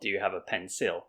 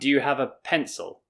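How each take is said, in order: First: The second vowel of pencil is full and clear. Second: The second vowel of pencil is flat and reduced. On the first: The speaker calls it wrong. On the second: The speaker calls it right. "flattening out this vowel"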